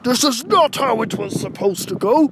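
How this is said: It is done in second stage Cell's voice.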